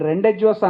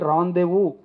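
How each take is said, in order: First: Every written letter, including d, z, s, is sounded. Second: The d, z and s letters are left silent. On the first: The speaker calls it wrong. "నేను రెండెడ్జ్వర్స్ అన్నాను" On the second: The speaker calls it right. "దాన్ని పలకాల్సింది రాందేవు అని పలకాలి"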